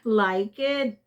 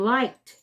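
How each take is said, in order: First: The ending is an extra vowel syllable. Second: The ending is a bare t sound. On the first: The speaker calls it wrong. "because you all pronounce the e here. Like you said" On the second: The speaker calls it right. "because of the k, it's t"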